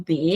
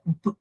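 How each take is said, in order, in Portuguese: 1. A letra é dita com a sua vogal, como bê. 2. Só o som da consoante é dito, sem vogal. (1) "ele é o B, é o nome dele" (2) "mas o som é B, né? Sem pronunciar a vogal"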